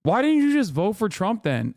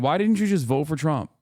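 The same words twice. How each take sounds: First: High, incredulous demand; exasperated. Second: Said in the usual way. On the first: Real, not acted. Ranting at liberals, high exasperated demand. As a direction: throw the question out in disbelief.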